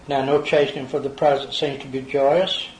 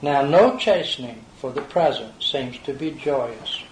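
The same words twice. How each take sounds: First: It is read at a normal pace. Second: It is read slowly.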